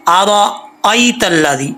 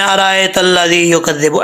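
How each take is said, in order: First: अरायतल्लज़ी slowly with a short अ; the correct pronunciation; correct reading. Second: अरायतल्लज़ी said with a long आ after अ; the common mispronunciation; wrong reading. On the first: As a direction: read अरायतल्लज़ी carefully and evenly. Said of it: "हमज़ा ज़बर या". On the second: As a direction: demonstrate the mistaken अरायतल्लज़ी. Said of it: "ऐसा नहीं पढ़ना". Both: Shown as a demonstration.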